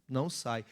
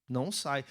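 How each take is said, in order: The two takes are said the same way.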